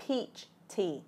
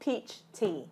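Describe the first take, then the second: No difference in how they are said.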